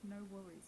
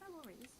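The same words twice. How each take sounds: First: It is said in a sarcastic, mocking tone. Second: It is said in a sincere, genuine tone. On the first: The speaker actually does mind. "if I am sarcastically saying no worries" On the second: The speaker truly does not mind. "if I am genuinely saying no worries"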